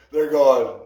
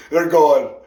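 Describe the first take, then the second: No difference in how they are said.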